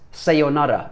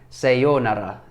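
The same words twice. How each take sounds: First: The 'yo' syllable carries no accent. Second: The 'yo' syllable carries an accent. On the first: The speaker calls it wrong. "I learned it as sayonara" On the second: The speaker calls it right. "there's actually a little accent on the o"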